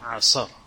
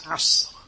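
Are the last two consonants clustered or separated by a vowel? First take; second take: separated; clustered. First: A vowel is added after the middle consonant. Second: The middle consonant has no vowel after it. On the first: The speaker calls it wrong. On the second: The speaker calls it right.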